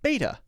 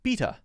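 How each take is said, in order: First: It uses the speaker's home regional pronunciation. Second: It uses a pronunciation from other regions. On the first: "where I come from, B E T A is pronounced beta" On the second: "in some places, B E T A would be pronounced beta"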